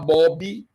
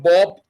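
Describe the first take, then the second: First: The word ends with an added vowel sound. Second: The word ends on a bare consonant sound.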